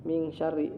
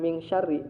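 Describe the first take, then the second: The two takes are said the same way.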